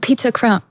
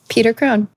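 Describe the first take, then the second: First: It is said in a put-on British accent. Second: It is said in a plain American accent.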